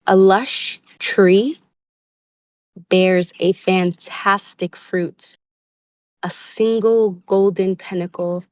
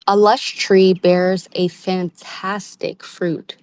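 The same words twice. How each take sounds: First: Slow, weighted reread with rise on tree; slower emphatic reread. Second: Slow, savoring read. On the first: Reader rereads card line slowly to viewers. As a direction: savor it, lingering on tree. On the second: Tarot reader reads card text slowly. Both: Shown as a demonstration. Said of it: "let me read that again".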